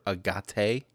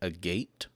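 First: The word is said in a fancy-sounding way. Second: The word is said in a plain, everyday way.

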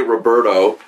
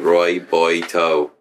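First: The name is said in a plain accent. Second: The name is said in a put-on accent. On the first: The speaker calls it wrong. "You don't say Roberto" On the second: The speaker calls it right. "It's got to be Roberto"

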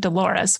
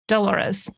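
First: The stress is on the second syllable. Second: The stress is on the first syllable. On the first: The speaker calls it wrong. "which is how I want to pronounce it" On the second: The speaker calls it right. "the emphasis is on the duh"

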